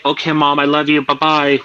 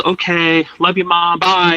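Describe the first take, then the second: First: Said in the usual way. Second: Higher, sing-song goodbye to a pretend mom; chirpy send-off to the old lady; cheerful goodbye. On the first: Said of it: "will you say". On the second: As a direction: wave her off brightly with a lifted pitch. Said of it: "and my mom says".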